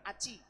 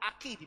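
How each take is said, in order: First: The middle consonant is a ch sound. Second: The middle consonant is a k sound. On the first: The speaker calls it wrong. "bukan Aci" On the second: The speaker calls it right. "Aki dibaca"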